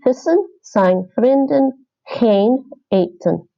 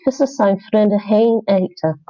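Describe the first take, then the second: First: The -en word endings are fully pronounced. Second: The -en word endings are dropped. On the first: This is the careful form for learners. "But just for learning" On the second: This is how many locals casually speak. "They wouldn't say the ends"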